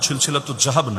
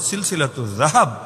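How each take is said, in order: First: The last word starts with a plain local sound. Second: The last word starts with a careful Arabic sound. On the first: The speaker calls it wrong. "আপনার মতো জাহাব না" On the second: The speaker calls it right. "উচ্চারণটাও শুদ্ধ করে করা যায়"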